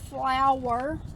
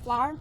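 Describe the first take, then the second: First: The word is said with two full syllables. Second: The word is shortened to one syllable. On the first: "I don't say flour" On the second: "we shorten words in the South. We don't say all those syllables"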